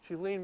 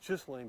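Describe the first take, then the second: First: Ghislaine said carefully as "zhee-lane"; corrected pronunciation. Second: Ghislaine said as "iss-lane"; wrong pronunciation. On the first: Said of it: "but it's, it's Ghi-, Ghislaine Maxwell". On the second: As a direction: Ghislaine with the hard, mistaken start. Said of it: "I always say her name wrong". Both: Shown as a demonstration.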